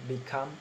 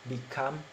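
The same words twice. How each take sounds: No difference in how they are said.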